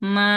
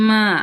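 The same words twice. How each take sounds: First: The pitch stays level and flat. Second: The pitch dips low, then rises. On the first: "এটা হচ্ছে ফ্ল্যাট হয়ে যাবে" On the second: "নিচে নেমে তার কি উপরে উঠতেছে"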